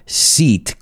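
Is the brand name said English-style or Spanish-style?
English. The name is said with an English-style pronunciation. The speaker calls it wrong. "yo decía Seat cuando vine a España"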